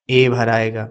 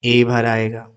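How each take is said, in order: Both takes have the same delivery.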